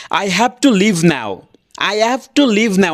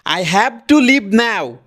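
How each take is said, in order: First: "I have to leave now" slowly and clearly articulated; careful pronunciation. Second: Exaggerated Indian accent, slow and higher. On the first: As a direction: pronounce "I have to leave now" properly, word by word. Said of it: "এটা ভালো করে উচ্চারণ করলাম". (ভালো করে, স্পষ্ট উচ্চারণে I have to leave now) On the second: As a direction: put on a strong Indian English accent. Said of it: "Indian accent এটা". (ইন্ডিয়ান অ্যাকসেন্টে টেনে টেনে) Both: Shown as a demonstration.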